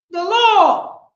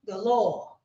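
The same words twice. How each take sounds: First: Emphatic repeat; loud. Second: Said in the usual way. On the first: Real, not acted. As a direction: declare it.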